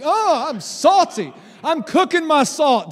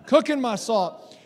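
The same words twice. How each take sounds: First: Louder playful try at "cooking my salt"; mock Gen Z hype. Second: Said in the usual way. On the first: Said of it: "Did I get it right, Gen Z?". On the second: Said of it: "I didn't get it right".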